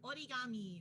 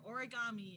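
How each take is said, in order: First: It is said with a Japanese pronunciation. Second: It is said with an American pronunciation.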